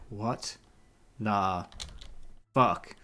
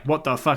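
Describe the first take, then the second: First: It is said slowly and awkwardly. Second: It is said quickly and smoothly.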